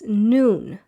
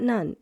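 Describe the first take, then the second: First: The vowel is a long oo sound. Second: The vowel is a short uh sound. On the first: The speaker calls it right. "it's Noon" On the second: The speaker calls it wrong. "Many people pronounce this as Nun at the end here, but it's not Nun"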